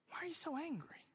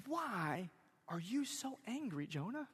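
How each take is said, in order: First: Whispered question. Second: Soft, probing question with pauses; hushed question. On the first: Preacher repeating his question to angry Jonah, whispered. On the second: Preacher questioning angry Jonah, hushed and searching. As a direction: ask it gently and quietly, a beat after why. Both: Acted.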